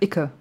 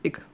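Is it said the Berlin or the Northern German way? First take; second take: Berlin; Northern German. First: It is said the Berlin way, as Icke. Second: It is said the Northern German way, as Ick.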